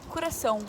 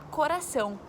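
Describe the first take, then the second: First: The first o sounds closed, almost like u. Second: The first o sounds open, Brazilian style. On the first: "com o O do coração mais fechado, quase um U" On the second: "No Brasil a gente fala coração"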